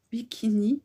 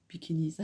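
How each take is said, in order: First: Said in the usual way. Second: "Bikinis" with a final S sounded, American way; American style with S. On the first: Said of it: "mettre des S partout". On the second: Shown as a demonstration. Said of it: "à l'américaine".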